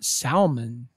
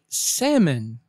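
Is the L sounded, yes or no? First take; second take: yes; no. First: The word is said with the L sounded, like 'sal-mon'. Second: The word is said with a silent L, like 'sam-mon'. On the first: The speaker calls it wrong. "not salmon. The L is silent" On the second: The speaker calls it right. "Say salmon"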